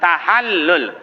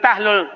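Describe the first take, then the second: First: The word is said with three syllables. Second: The word is said with two syllables. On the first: The speaker calls it right. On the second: The speaker calls it wrong. "Ada orang baca tahlul, bukan tahlul"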